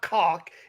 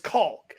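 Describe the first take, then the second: First: The word is said with no L sound. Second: The word is said with an L sound. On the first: The speaker calls it wrong. "It's not cock" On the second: The speaker calls it right. "There's an L in it"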